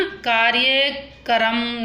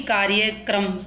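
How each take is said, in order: First: कार्यक्रम slowly, ending "ka-ram"; wrong split cluster. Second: कार्यक्रम lower, ending "kram"; correct cluster. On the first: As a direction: break कार्यक्रम into "kaarya-karam". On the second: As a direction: join k and r in कार्यक्रम. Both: Shown as a demonstration. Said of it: "कार्यक्रम नहीं".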